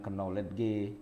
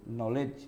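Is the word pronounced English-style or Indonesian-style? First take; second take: Indonesian-style; English-style. First: It is read letter by letter, Indonesian-style. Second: It is pronounced the normal English way. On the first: The speaker calls it wrong. "Harusnya dibaca jangan knowledge" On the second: The speaker calls it right. "knowledge gitu aja"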